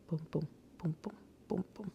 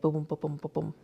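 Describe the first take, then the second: First: The booms are said slowly and relaxed. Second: The booms are said fast, like a gallop.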